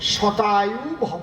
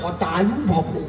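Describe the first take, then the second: First: The first word begins with a 'sh' sound. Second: The first word begins with an 'h' sound. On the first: May you live a hundred years. The speaker calls it right. "এর সংস্কৃত কি?" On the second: May your life be cut short. The speaker calls it wrong. "ওনার তো স্ব উচ্চারণ হয় না।"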